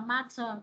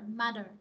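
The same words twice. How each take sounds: First: It is said with a clear t sound. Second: It is said with a soft d sound. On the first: "nếu mà anh nó sẽ đọc là matter" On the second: "còn anh Mỹ á sẽ đọc là matter"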